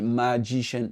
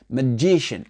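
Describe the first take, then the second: First: The first syllable is full and not reduced. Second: The first syllable is reduced; the second is stressed. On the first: The speaker calls it wrong. "Il n'a pas dit magician" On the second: The speaker calls it right. "le M A là, il a été réduit. L'accent tonique, il a été sur le G I"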